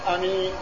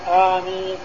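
First: The first vowel is kept short. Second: The first vowel is drawn out long. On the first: "يعني بدون مد" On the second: "تمدها بالهمزة المد"

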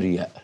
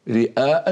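First: The middle sound is a y glide. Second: The middle sound is a glottal stop. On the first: This is the lightened everyday form. "فيخففونها رياء" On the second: This is the original form used in the Quran. "لكن القرآن أتى على الأصل"

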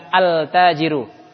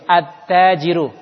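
First: The L is clearly pronounced before the T. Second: The L merges into a doubled T sound. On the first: The speaker calls it wrong. "bukan al-tajiru" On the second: The speaker calls it right. "Contoh lagi seperti at-tajiru"

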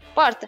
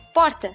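First: It is said with a São Paulo city accent. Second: It is said with a São Paulo city accent.

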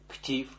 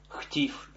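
First: The word begins with a hard k sound. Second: The word begins with a rasping kh sound. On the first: The speaker calls it wrong. "а не ктив" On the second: The speaker calls it right. "мы говорим хтив"

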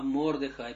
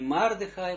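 First: The first vowel sounds like 'o'. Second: The first vowel sounds like 'a'. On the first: The speaker calls it right. "а Мордехай, потому что камат стоит" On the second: The speaker calls it wrong. "Если не Мардехай"

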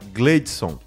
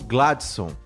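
First: The first vowel sounds like 'e'. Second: The first vowel sounds like 'a'.

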